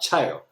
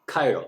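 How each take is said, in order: First: The word begins with a 'ch' sound. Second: The word begins with a 'k' sound. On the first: The speaker calls it wrong. "not chiral" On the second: The speaker calls it right. "C H has a pronunciation of K in some words"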